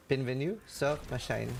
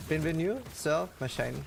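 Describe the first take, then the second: First: Put-on French accent. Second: Put-on light French accent, welcome greeting. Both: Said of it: "what I tried to say".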